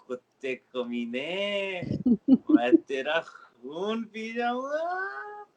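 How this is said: It is said in a funny way.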